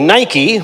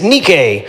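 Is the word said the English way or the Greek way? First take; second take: English; Greek. First: It is pronounced the English shoe-brand way. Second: It is pronounced the Greek way. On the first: The speaker calls it wrong. "We mispronounce it for that one" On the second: The speaker calls it right. "in Greek it's Nike"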